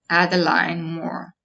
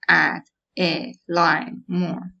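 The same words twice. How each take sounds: First: There is one pause, after line. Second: There is a pause after every word. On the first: "there might be a pause after line" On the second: "we would not have a pause after add, like"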